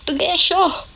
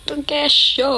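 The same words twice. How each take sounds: First: High playful call to dad; calling out nickname. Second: Calling out nickname. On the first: Daughter calling her dad by his nickname, playful shout. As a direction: sing out his nickname across the house. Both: Shown as a demonstration. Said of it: "Mga ganun ako".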